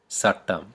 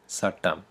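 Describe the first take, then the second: First: The word begins with an s sound. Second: The same.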